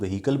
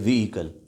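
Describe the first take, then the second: First: The word is said short, not drawn out. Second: The word is drawn out a little. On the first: The speaker calls it wrong. "आमतौर पे हम इसको व्हीकल बोलते हैं" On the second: The speaker calls it right. "थोड़ा खींच के"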